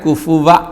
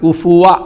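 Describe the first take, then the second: First: The middle consonant is a lip-teeth 'v' sound. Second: The middle consonant is a rounded 'w' sound. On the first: The speaker calls it wrong. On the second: The speaker calls it right.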